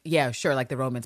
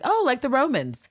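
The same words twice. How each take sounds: First: Low, noncommittal going-along; mock vague agreement. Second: Higher-pitched, pleased realization; mock interest. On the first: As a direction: imitate someone agreeing without a clue. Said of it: "I feel like Abbott nods". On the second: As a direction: imitate someone delighted to catch on. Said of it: "Captain Lister's like".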